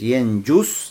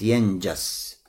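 First: The final syllable has the vowel u. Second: The final syllable has the vowel a. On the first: "можно говорить «йенджус» с даммой" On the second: "можно говорить «йенджас» с фатхой"

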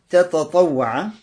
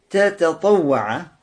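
The two takes are said the same way.

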